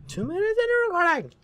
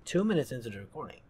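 First: Very high, loud screech; exasperated scream. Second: Said in the usual way. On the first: Real, not acted.

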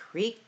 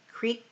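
No difference in how they are said.

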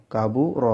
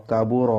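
Both takes have the same delivery.

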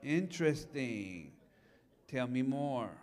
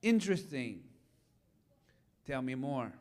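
First: Soft, slow, low curiosity; curious invitation to son. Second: Soft, low, unhurried curiosity; curious invitation. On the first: Retold or imitated. Father answering his son's wild idea, soft and slow. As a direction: calmly draw the son out. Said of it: "I said". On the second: Shown as a demonstration. Pastor opening with curiosity instead of advice, soft and low. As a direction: gently invite them to keep talking. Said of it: "I lead with".

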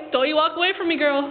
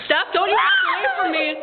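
First: Said in the usual way. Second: High laughing mock shout; heated family shouting. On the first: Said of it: "repeat of line 4". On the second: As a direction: yell after her, half laughing. Mock scolding friend walking away.

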